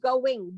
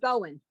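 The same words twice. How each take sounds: First: The final g sound is pronounced. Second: The final g sound is dropped. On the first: The speaker calls it right. "the word really is going" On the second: The speaker calls it wrong. "There is no such word as going"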